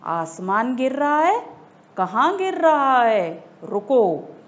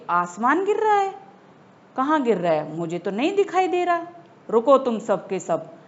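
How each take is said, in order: First: Loud angry lion roar. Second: Louder lion shout. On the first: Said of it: "दहाड़ कर जोर से बोला". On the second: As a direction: bellow it even harder at the animals. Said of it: "तेज आवाज में कहा". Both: A narrator's reading.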